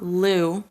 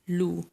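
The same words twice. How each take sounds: First: The oo vowel is loose and relaxed. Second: The oo vowel is tight and rounded. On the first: The speaker calls it wrong. "It's not Lu" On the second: The speaker calls it right. "Make sure you're making a tight oo sound"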